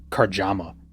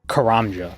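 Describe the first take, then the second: First: The j sound comes before the m sound. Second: The m sound comes before the j sound. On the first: The speaker calls it wrong. "I've heard Karjama. It's like, no, read the word" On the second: The speaker calls it right. "read the word"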